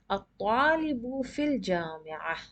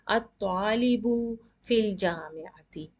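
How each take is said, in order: First: The last word stops on a bare -ah. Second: The last word ends with the full vowel -ati. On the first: The speaker calls it right. "You stop as ah. ... proper way to read in Arabic" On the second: The speaker calls it wrong. "you basically don't say"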